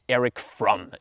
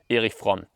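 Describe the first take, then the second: First: The name is said with an American pronunciation. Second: The name is said with a non-American pronunciation.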